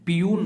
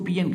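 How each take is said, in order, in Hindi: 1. शब्द का अंत लंबी 'yoon' की आवाज़ से होता है। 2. शब्द का अंत छोटे 'un' की आवाज़ से होता है। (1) "पीयून नहीं कहते हैं" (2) "इसको पीएन कहते हैं"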